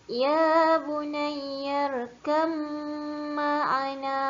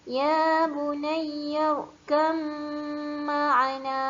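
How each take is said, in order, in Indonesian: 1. Bunyi b menyatu dengan dengung m. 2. Bunyi b menyatu dengan dengung m.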